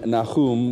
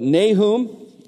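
First: The name is pronounced in a Hebrew style. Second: The name is pronounced in an English style. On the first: "which is the more of the Hebrew style" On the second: "I'm going to pronounce it in the English pronunciation"

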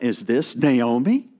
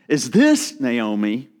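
First: The stress is on "Naomi". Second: The stress is on "this".

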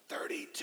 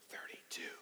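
First: It is whispered as loudly as possible. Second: It is whispered softly and quietly. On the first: "I could do the loudest whisper that I know how to do" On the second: "I would whisper"

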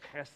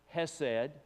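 First: The first sound is a rough, throaty rasp. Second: The first sound is a plain, soft h.

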